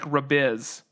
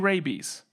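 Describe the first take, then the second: First: It is said like rabiz, ending in z. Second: It is said like the word rabies. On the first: "was trying to say it like rabiz, but I'm pretty sure I would say it's not rabiz" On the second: "It could be rabies"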